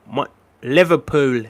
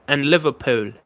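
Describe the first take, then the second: First: Liverpool in a slow Scouse accent. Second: Said in the usual way. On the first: Shown as a demonstration. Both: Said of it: "I do a pretty good Scouse accent".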